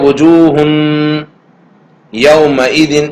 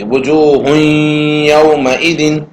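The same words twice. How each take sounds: First: The n sound is clearly pronounced before the y. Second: The n sound is merged into the following y. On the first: The speaker calls it wrong. "देखो तनवीन की आवाज है ... इस तरह नहीं पढ़ेंगे" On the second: The speaker calls it right. "तनवीन की आवाज ये या में मिल जाएगी"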